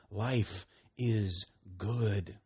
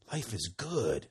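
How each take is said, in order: First: Slow, deliberate, each word weighed; slow declaration. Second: Said in the usual way. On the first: Acted. Preacher declaring to the congregation, slow and weighty. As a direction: savor each word, slowly.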